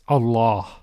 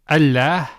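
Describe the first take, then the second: First: The L sound is heavy and thick. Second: The L sound is light and thin. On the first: The speaker calls it right. "the lam is pronounced with tafkhim, with heaviness" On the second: The speaker calls it wrong. "instead of saying Allah"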